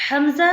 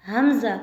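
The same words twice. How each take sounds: First: हमज़ा with no throat onset, rising; teacher's wrong take; wrong hamza. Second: हमज़ा from the throat, falling; teacher's correct take; correct hamza. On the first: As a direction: say हमज़ा like अमज़ा. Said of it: "कौन सा सही है?". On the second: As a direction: say हमज़ा with the full throat sound. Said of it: "दूसरा सही है।". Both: Shown as a demonstration.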